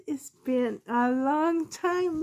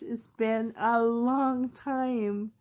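First: High, slow sing-song line to the pets; cooing to pets. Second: Said in the usual way. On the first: Real, not acted. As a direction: stretch it out, cooing at them. Greeting pets on camera.

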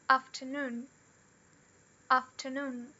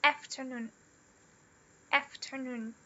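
First: Afternoon in a British RP accent. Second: Afternoon in an American accent. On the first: Teacher models afternoon for students, RP British accent. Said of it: "Na pronúncia R P". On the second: Teacher models afternoon for students, American accent. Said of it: "ou na pronúncia americana". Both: Shown as a demonstration.

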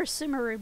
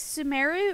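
First: Sumeru with the stress on SOO; Sumeru as SOO-muh-roo. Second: Sumeru with the stress on MAIR; Sumeru as suh-MAIR-oo. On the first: Streamer recalls the other way they said it, Sumeru as SOO-muh-roo. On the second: Streamer recalls one way they said it, Sumeru as suh-MAIR-oo. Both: Shown as a demonstration. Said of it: "I've pronounced it as".

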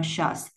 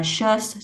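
First: "shirts" dropped low with a falling tone; lowered tone. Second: Said in the usual way. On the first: Shown as a demonstration. Teacher sounding out expeditiously, lowered tone on "shirts". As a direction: let the voice fall on "shirts". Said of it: "xuống giọng". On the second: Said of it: "xuống giọng là shirts".

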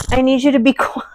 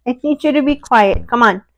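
First: Laughing plea. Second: Higher, stress on to, falling at the end; firm but patient, to the dog; firm command. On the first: Hushing the dog, laughing. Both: Real, not acted.

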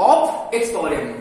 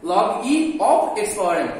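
First: Said in the usual way. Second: Slow reading aloud. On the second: Shown as a demonstration. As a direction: say the whole English reading slowly, word by word. (ধীরে ধীরে উচ্চারণ করে দেখানো) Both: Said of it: "অথবা বলতে পারো".

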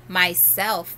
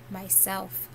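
First: Louder, ringing and joyful; loud and clear. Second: "Myself" breathed very softly; barely audible hush; soft whisper. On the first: The great voice answers Shasta, loud and joyful. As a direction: ring "Myself" out loud and glad. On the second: The voice answers Shasta in a faint whisper. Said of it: "whispered so softly you could hardly hear it". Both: A narrator's reading.

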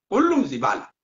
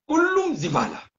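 First: Said in the usual way. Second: كلهم thrown much higher and slower with heavy stress; emphatic repeat. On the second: Real, not acted. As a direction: lift كلهم high and drag it out in scorn. Repeats insult, second time emphatic. (تشديد على كلهم بصوت أعلى وأبطأ)

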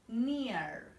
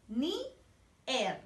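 First: Said in the usual way. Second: "Near" split into two syllables, "ni... er", with a gap. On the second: Shown as a demonstration. Teacher models English for children to repeat, "Near" in separated syllables. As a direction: break "Near" slowly into "ni", pause, "er". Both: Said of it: "Vamos a repetir".

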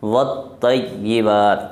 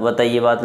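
First: Slow "والطیبات" with a clear lam; correct version. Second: "وطیبات" without the lam, as people say it; wrong version. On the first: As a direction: model the right "والطیبات" slowly. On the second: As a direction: say "وطیبات" the faulty way. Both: Shown as a demonstration. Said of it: "وطیبات نہیں".

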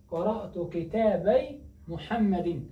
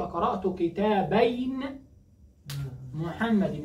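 First: كتابي said slowly as "kitaabay", no final n; dual nun dropped. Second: كتابين said slowly as "kitaabayn", final n held; dual nun sounded. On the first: Teacher giving the example, slow كتابي without the nun. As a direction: stretch كتابي and end it on "-ay". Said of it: "ولكن حذفت النون". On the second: Teacher showing the original form, slow كتابين with its nun. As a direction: stretch كتابين and sound its closing n. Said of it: "الأصل أقول". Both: Shown as a demonstration.

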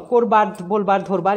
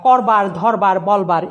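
First: করবার, বলবার, ধরবার with closed o: korbar, bolbar, dhorbar; correct o sound. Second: করবার, ধরবার, বলবার with open ɔ: kawrbar, dhawrbar, bawlbar; wrong open vowel. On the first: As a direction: round the first vowel of করবার, বলবার, ধরবার to o. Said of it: "এভাবে হবে". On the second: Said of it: "এভাবে উচ্চারণ হবে না". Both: Shown as a demonstration.

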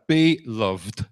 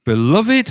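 First: "Beloved" split slowly as BE, LOVED; two-part be loved. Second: "Beloved" as be-LUV-id, louder and rising; three-syllable beloved. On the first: Preacher savouring the first phrase, "Beloved" split into be loved. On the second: Preacher opening a verse reading, "Beloved" in three syllables, rising. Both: Shown as a demonstration. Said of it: "I even like the very first phrase".

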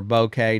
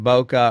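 First: "bokeh" pronounced BOH-kay, rhyming with okay. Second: "bokeh" pronounced BOH-kuh, short final vowel. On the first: Photo teacher giving the other pronunciation, "bokeh" as BOH-kay. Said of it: "depending on how you do it". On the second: Photo teacher giving one pronunciation of a term, "bokeh" as BOH-kuh. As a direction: say "bokeh" ending in an unstressed "kuh". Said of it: "It's pronounced bokeh or bokeh". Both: Shown as a demonstration.

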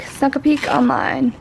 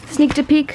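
First: Said in the usual way. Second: "sneaked" said first, then dropped for "snuck"; wrong verb form. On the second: Shown as a demonstration. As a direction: try the word "sneaked" before self-correcting.

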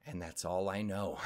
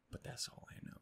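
First: Said in the usual way. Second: Very soft, unvoiced whisper; barely audible repeat under the breath; whispered aside. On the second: Real, not acted. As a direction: whisper it as a tiny afterthought. Hushed repeat of the line.

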